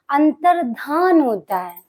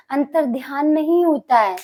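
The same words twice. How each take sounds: First: Slow अंतर्धान without ya; correct pronunciation. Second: अंतर्ध्यान with the extra ya sound; wrong pronunciation. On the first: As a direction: carefully say अंतर्धान, dha not dhya. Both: Shown as a demonstration. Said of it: "अंतर्ध्यान नहीं होता है, अंतर्धान होता है".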